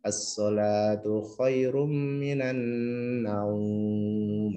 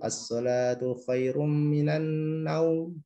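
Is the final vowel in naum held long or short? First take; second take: long; short. First: The vowel in the last word is lengthened. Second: The vowel in the last word is kept short. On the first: The speaker calls it right. "Itu sebetulnya panjang" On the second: The speaker calls it wrong. "pendek gitu"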